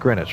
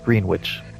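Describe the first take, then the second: First: The name is said in its shortened, unspelled form. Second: The name is said as spelled, every letter sounded. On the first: "You're supposed to pronounce that Greenwich" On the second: "phonetically it reads Greenwich"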